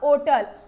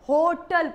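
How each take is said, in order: First: The word starts without an h sound. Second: The word starts with an h sound. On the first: This is the older pronunciation. "होटल को क्या पढ़ा जाता था" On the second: This is the modern pronunciation. "होटल को ओटल नहीं होटल पढ़ते हैं"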